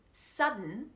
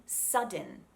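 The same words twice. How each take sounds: First: "sudden" as sud-n, D unreleased; "sudden" with no second vowel; silent D. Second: "sudden" as sud-den, D released; "sudden" with the D popped before a vowel; fully sounded D. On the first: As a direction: go straight from held D to N in "sudden". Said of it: "It's a silent D". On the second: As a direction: give "sudden" a clear second vowel. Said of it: "but I'm not saying sudden". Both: Shown as a demonstration.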